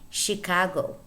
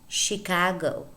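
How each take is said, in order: Both takes have the same delivery.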